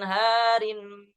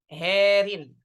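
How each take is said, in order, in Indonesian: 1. Vokal pertama adalah 'a' terbuka biasa. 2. Vokal pertama condong ke 'e'.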